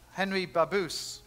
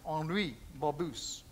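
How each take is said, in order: First: Said in the usual way. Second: Henri Babus said slowly with a light French accent, ahn-REE ba-BOO. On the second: Shown as a demonstration. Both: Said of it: "let's try and say it a little bit with a French accent".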